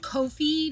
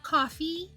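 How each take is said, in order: First: It sounds different from the drink word coffee. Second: It sounds exactly like the drink word coffee. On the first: This is how the makers say it. "the devs of Ko-fi pronounce it Ko-fi" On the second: This is how the speaker usually says it. "not coffee. I've always said coffee"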